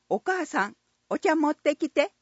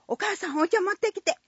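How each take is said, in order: First: The sentence is said at a normal pace. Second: The sentence is said at a very fast pace. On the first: A casual request made at the last moment. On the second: Taking the scolding to say it sooner literally.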